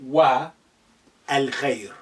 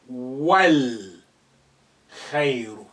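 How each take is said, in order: First: A separate 'a' is heard before 'l'. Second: The words run together with no separate 'a'. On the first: The speaker calls it wrong. "not wa al khayr" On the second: The speaker calls it right. "You will say wal khayru"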